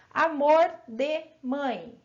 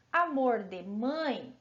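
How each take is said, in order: First: Amor de mãe slow and drawn-out; slow demo. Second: Said in the usual way. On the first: Shown as a demonstration. Teacher showing pupils the phrase, slow and drawn-out. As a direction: stretch out amor de mãe for the class. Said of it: "se eu falar assim". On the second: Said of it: "é uma locução adjetiva".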